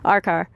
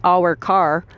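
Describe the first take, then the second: First: It is said in a New England accent. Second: It is said in a standard accent. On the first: This is how the dogs usually hear it at home. "if I'm at home and I tell my dogs" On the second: The dogs would not recognize it. "if I said our car, they'd be like, hmm, nope"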